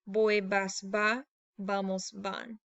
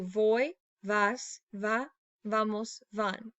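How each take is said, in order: First: The words begin with a B sound. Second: The words begin with a V sound.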